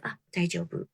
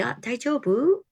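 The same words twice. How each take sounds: First: Reply "daijobu." quietly, settled down; answering daijobu. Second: Daijobu with a rising, higher question tune; asking daijobu. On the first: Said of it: "And I'll be like". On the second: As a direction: ask "daijobu?" with a lift at the end. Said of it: "And people say". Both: Retold or imitated.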